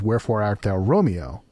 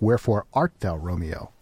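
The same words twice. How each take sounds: First: The stress falls on the word Romeo. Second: The stress falls on the word wherefore. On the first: The question asks why he is Romeo. The speaker calls it right. "the correct way to speak that sentence is" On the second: The question asks where he is. The speaker calls it wrong. "you read that out in your head and you think"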